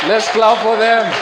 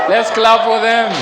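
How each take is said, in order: The two takes are said the same way.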